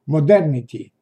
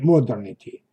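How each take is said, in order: First: The stress falls on a later syllable. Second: The stress falls on the first syllable. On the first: The speaker calls it right. "однако modernity" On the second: The speaker calls it wrong. "а не modernity"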